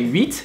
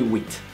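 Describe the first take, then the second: First: It is said with a native French accent. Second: It is said with an English-speaker's accent. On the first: "You will not say huit" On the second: "you will not be able to pronounce it properly"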